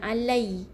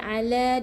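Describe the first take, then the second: First: The word ends in an ai glide. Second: The word ends in a long a vowel. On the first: The speaker calls it wrong. "Bukan alai" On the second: The speaker calls it right. "ni ala dua harakat"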